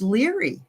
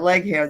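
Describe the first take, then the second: First: The name is said as one word, 'leary'. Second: The name is read as two words, 'leg hair'. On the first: The speaker calls it right. "it was Leary. That's how you say it" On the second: The speaker calls it wrong. "everybody called her Leg Hair"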